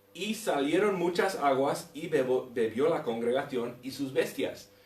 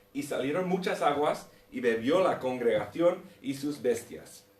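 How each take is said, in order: No difference in how they are said.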